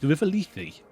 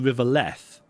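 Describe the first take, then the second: First: The name has two syllables ending in 'ee'. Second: The name is one syllable without a final 'ee'. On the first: The speaker calls it right. "Sounds like Leafy" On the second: The speaker calls it wrong. "I've always called it the River Leth"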